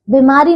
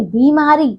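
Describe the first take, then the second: First: बीमारी with a short first vowel: bimaari; mispronunciation. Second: बीमारी with a long "bee"; correct pronunciation. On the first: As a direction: clip the "bi" of बीमारी. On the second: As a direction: stretch the first syllable of बीमारी. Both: Shown as a demonstration. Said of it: "बीमारी नहीं".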